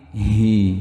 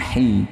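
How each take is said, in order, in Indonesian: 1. Suku kata ini terdengar berat dan tebal. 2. Suku kata ini terdengar ringan dan tipis. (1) "hi-nya tebal teman-teman, ... tapi hi" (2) "bukan hi"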